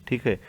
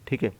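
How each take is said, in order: Both takes have the same delivery.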